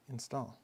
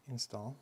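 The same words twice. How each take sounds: The two takes are said the same way.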